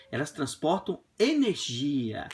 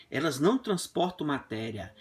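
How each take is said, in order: First: Energia stretched slowly with a fall; stress on energia. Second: Não stressed, falling. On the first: (ênfase lenta em energia) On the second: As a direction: lean on the word não. (ênfase no não) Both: Shown as a demonstration.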